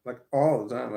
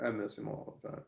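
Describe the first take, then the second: First: All the time punched louder; insistent all the time; stress on all the time. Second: Said in the usual way. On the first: Real, not acted. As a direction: lean hard on all the time.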